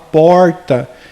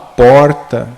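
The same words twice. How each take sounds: First: It is said in an interior São Paulo accent. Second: It is said in a São Paulo city accent.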